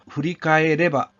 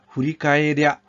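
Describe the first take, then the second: First: The ending is said in full as reba. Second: The ending is contracted to a quick rya. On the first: "후리카에레바가 되거든요" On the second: "빨리 발음하게 되면 랴가 됩니다"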